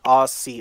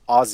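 First: The middle consonant is a hissing s sound. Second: The middle consonant is a buzzing z sound. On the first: The speaker calls it wrong. "They're not Aussie Open" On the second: The speaker calls it right. "you got to put the Z's in it"

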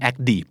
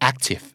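First: The middle t sounds like a quick d. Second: The middle t is not turned into d. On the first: The speaker calls it wrong. "ก็ไม่" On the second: The speaker calls it right. "นะครับ"

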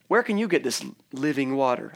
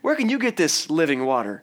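First: It is asked as a plain question. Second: It is asked in a mocking, skeptical tone.

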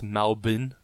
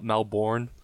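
First: Melbourne is said the local Australian way. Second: Melbourne is said the American way. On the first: The speaker calls it right. "it's pronounced Melbourne" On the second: The speaker calls it wrong. "for all you American listeners, ... not Melbourne"

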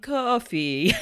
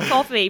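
First: The first syllable rhymes with 'go', like lo-fi. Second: The first syllable rhymes with 'cot', like coffee. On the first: "I end up saying Ko-fi" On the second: "I think it's just coffee"

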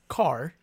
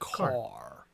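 First: It is said plainly, in a normal American way. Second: It is said with an exaggerated, drawn-out vowel. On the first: This is how Americans naturally say it. "we would say car" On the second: This is how British actors imitate an American accent. "they're like car"

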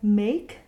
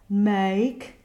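First: The vowel is a closed e sound. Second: The vowel is an open eh sound. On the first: The speaker calls it right. "make sure that the primary vowel is the more closed lowercase e" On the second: The speaker calls it wrong. "and not make"

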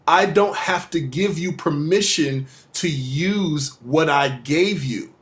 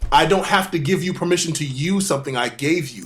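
First: It is said slowly and deliberately. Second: It is said at normal speed.

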